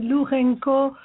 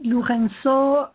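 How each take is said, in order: First: The name is said with a non-French pronunciation. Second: The name is said with a French pronunciation. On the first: "in other countries they say Lourenco" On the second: "French people say Lourenço"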